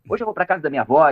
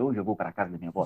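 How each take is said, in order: First: Words run together in a relaxed, casual way. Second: Every word is said fully and stiffly. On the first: It is adapted to sound like real speech. The speaker calls it right. "você vai falar" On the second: It is read exactly as written in the script. The speaker calls it wrong. "Aí você não vai falar isso"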